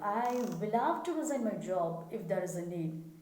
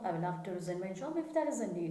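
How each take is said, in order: First: The words 'will have to' are stressed. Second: The words 'will have to' are unstressed. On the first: The speaker calls it right. "give emphasis to will have to" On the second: The speaker calls it wrong. "This is how the practice of many"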